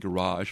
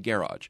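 First: It follows the French pronunciation. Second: It follows an anglicized pronunciation. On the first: "following the French pronunciation" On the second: "sort of anglicizing it"

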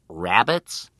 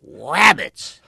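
First: It is said in an ordinary speaking voice. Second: It is said in a put-on cartoon voice. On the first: The person is correcting the pronunciation. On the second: The person is insisting on the mispronunciation.

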